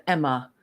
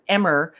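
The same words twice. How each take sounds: First: EMMA ending in an open "uh"; standard pronunciation. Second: EMMER with an "er" on the end; imitating Aussie pronunciation. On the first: Shown as a demonstration. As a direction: say "Emma" with no R at the end. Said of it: "instead of Emma". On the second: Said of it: "saying Emmer instead of Emma".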